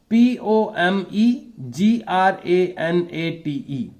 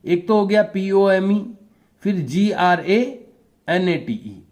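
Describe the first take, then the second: First: Every letter of P O M E जी R A N A T E spelled out slowly in one run; slow spelling. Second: P O M E, then जी R A, then N A T E, with a clear pause between the chunks; spelled in three parts. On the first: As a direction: spell P O M E जी R A N A T E letter by letter at half speed, no breaks. (धीरे-धीरे पूरी spelling एक साथ) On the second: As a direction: split P O M E / जी R A / N A T E into three grouped chunks. (तीन हिस्सों में रुक-रुक कर spelling) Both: Shown as a demonstration. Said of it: "three parts में भी बोल सकते हैं".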